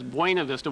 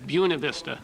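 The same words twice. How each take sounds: First: It uses an outsider's pronunciation of the name. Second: It uses the locals' pronunciation of the name. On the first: The speaker is from out of town. "we knew they were from out of town" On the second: The speaker is from the county. "everybody there referred to it as Buena Vista"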